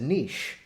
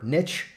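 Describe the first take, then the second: First: The word does not rhyme with rich. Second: The word rhymes with rich. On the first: "you refer to it as a niche" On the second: "niche rhymes with rich"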